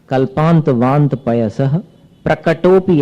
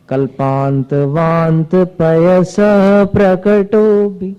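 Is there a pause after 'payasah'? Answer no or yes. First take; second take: yes; no. First: There is a pause after payasah. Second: It runs on without a pause after payasah. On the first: The speaker calls it right. "पयस, यहां रुक जाना है, फिर नए सिरे से प्रकटोपी" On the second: The speaker calls it wrong. "प्रकटो भी मिला दोगे उसमें, मिलाना नहीं है।"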